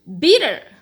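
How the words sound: It is said with an American accent.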